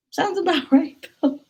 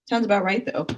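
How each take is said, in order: First: Laughing. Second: Said in the usual way. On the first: Shown as a demonstration.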